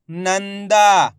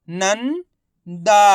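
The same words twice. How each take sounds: First: Nanda joined, long "दा" falling; blended whole word. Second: Nanda in two parts, "नं" rising, pause, long "दा"; very slowly sound out Nanda piece by piece; split into syllables. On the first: Teacher showing learners the result, Nanda blended together. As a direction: say Nanda as one slow unbroken word. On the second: Teacher breaking Nanda down for learners, syllable by syllable. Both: Shown as a demonstration. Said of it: "इनको आपस में मिला के पढ़ना है".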